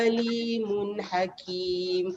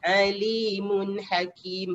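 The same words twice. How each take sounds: First: The first sound is a plain glottal stop. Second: The first sound is a strong throaty ain. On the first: It means painful. The speaker calls it wrong. "Kalau kita tak tekankan ain tu" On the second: It means all-knowing. The speaker calls it right. "Kita kena te- uh, tekankan bunyi ain tu"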